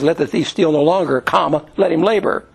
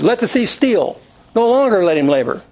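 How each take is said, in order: First: The pause comes after 'no longer'. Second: The pause comes after 'steal'.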